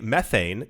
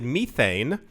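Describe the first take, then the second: First: It is said the American way. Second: It is said the non-American way. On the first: "except for Americans who say methane" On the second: "everyone else in the world pronounces it methane"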